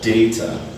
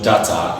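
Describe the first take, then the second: First: The first vowel is an 'ay' sound. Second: The first vowel is not an 'ay' sound. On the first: The speaker calls it right. "it's called data" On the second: The speaker calls it wrong. "is not data"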